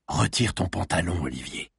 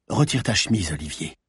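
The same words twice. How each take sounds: First: Lower, softer, commanding order. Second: Firm order, a touch husky; commanding voice. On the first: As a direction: drop the voice into a low command. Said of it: "Sa voix descendit encore dans les graves". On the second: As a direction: speak like a woman in charge. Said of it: "d'une voix qu'elle aurait voulu plus rauque". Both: A narrator's reading.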